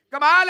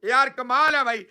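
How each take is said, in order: First: कमाल punched louder with a rising end; sarcastic disbelief. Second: Said in the usual way. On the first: Real, not acted. Host mocking the journalist, louder rising disbelief. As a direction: throw कमाल है out louder, rising in mock amazement.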